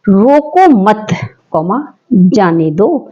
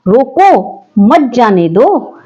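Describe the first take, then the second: First: The pause comes after 'मत'. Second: The pause comes after 'रोको'.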